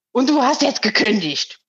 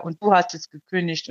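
First: A touch higher, curt call through the window; lightly voiced mother calling from the balcony. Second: Said in the usual way. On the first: Mother calls through the tilted window, curt mild call. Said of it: "da ruft die durch das gekippte Fenster". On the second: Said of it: "Nur diese blöde Aussage".

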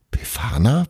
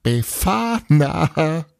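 First: Puzzled, rising "Befana?"; confused question. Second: High, slow, stretched-out crowing cry of a name; gleeful cry. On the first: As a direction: ask the name back, baffled. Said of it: "Bruno war verwirrt". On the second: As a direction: crow the name out in glee. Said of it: "als Tapani sehr laut auflachte". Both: A narrator's reading.

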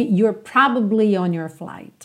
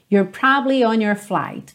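First: Slow line with all three syllables of "probably"; full pronunciation. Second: Slow line with "probably" as "probly"; middle syllable dropped. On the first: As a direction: keep the middle "ba" in "probably", PROB-uh-blee. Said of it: "Você não ouve". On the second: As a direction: say "probably" in two syllables, PROB-lee. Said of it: "não percebe mesmo essa sílaba do meio". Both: Shown as a demonstration.

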